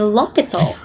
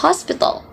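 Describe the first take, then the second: First: HOSPITAL said "lopital", no H; French dropped H. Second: HOSPITAL with its H pronounced; sounded H. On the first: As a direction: say "l'hôpital" with the H dropped. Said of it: "French usually drop the H sound". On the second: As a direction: breathe a clear H to start "hospital". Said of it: "they didn't pronounce this as hospital". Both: Shown as a demonstration.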